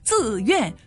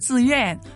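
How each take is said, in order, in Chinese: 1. 每个音节分开读，都保留完整的声调。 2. 两个音节连在一起读，像一个词。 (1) "不会读成自愿、面善、撤退，不是这样读了" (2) "人们生活当中就是自愿"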